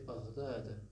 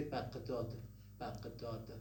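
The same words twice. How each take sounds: First: BAGHDAD with a gargled GH in the middle; Arabic ghain sound. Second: BAGHDAD with a hard Q stop for GH; Farsi speakers' pronunciation. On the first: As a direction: say BAGHDAD with a voiced uvular fricative. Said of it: "Farsi speakers don't have it". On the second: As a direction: say BAGHDAD as Baq-dad, stopped in the middle. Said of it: "What do they say?". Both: Shown as a demonstration.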